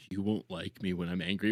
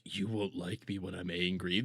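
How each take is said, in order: First: Low, quieter mock menace; mock tough guy quote. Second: Much lower, quieter menacing mock voice; mock tough guy quote. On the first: Streamer repeating the quote in a low mocking voice. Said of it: "That's what he basically said". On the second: Streamer reading a chat joke in a low mock growl. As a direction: drop the voice low to mock a hard man. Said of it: "Bright Mayor over on Kick says".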